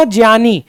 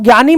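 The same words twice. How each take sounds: First: ज्ञानी said as "jiyani"; j gliding through y in ज्ञानी; corrected pronunciation. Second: ज्ञानी said as "gyani"; hard g plus y in ज्ञानी; common mispronunciation. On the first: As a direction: say ज्ञानी starting "jiya". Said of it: "इसको ज्या बोलेंगे". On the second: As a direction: say ज्ञानी starting "gya". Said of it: "हम लोग गलत बोलते हैं". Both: Shown as a demonstration.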